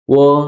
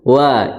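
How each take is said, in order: First: The vowel is a rounded o sound. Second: The vowel is an open a sound. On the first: The speaker calls it wrong. "jangan dibaca apa? Wo" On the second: The speaker calls it right. "tapi wa"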